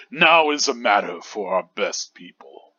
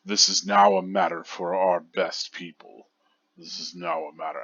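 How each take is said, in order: First: Put-on commanding, regal old commander; deep regal voice. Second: Lower, from the bottom of the throat. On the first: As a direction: speak it like the head captain. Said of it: "commanding and regal voice". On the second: Shown as a demonstration. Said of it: "that kind of lower bottom of the throat".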